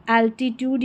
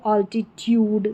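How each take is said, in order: First: "एल्टीट्यूड" opening on an AL sound as in pal; first-vowel variant. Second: "ऑल्टीट्यूड" opening on an AWL sound; alternative first vowel. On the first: Teacher offering learners one accepted reading, AL-titude pronunciation. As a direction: say "एल्टीट्यूड" with an open E start. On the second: Teacher offering learners another accepted reading, AWL-titude pronunciation. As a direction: say "ऑल्टीट्यूड" with a rounded O start. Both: Shown as a demonstration. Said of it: "या ऑल्टीट्यूड".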